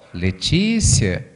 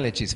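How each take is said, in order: First: The name is spoken somewhat louder. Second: The name is whispered very softly. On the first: A firmer call after the first was ignored. "a vida fala um pouquinho mais alto" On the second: A gentle first call that is easy to miss. "ela sussurra"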